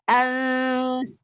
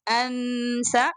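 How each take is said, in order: First: The n is hidden in a nasal hum. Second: The n is pronounced clearly before the s. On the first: The speaker calls it right. "It's Ans, Ans, like this. Then you should pronounce the sound from nose and mouth both together" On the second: The speaker calls it wrong. "Don't make Ansa, because most of the sisters read it like that. Ansa, it is wrong"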